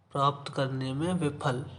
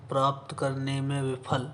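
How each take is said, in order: Both takes have the same delivery.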